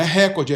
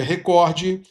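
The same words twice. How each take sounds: First: "recorde" as RÉ-cor-de; mispronounced "recorde", front-stressed; wrong first-syllable stress. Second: "recorde" as re-COR-de; corrected "recorde", middle syllable stressed; stress on second syllable. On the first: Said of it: "Não é recorde". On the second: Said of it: "é recorde". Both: Shown as a demonstration.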